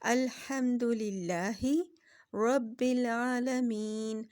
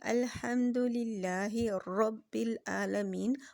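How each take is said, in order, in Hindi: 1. r एक छोटा सा टैप है। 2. r कई बार दोहराए गए टैप के साथ रोला जाता है। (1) "असल वर्ड इसका ये है" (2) "रॉ रॉ करके करेंगे तो ये एक से ज़्यादा रॉ हो गए"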